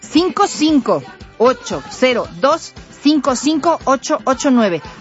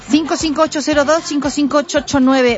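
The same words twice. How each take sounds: First: The number is read slowly. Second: The number is read at normal speed.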